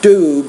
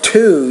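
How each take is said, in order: First: It begins with a soft D sound. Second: It begins with a breathy T sound. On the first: The speaker calls it wrong. "not do" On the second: The speaker calls it right. "pronounce the T as a T with more air, not as a D"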